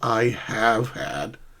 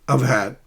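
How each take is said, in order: First: The words I have are said in full. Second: The words I have are contracted and linked. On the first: The speaker calls it wrong. "not I have had" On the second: The speaker calls it right. "You have to link these words smoothly"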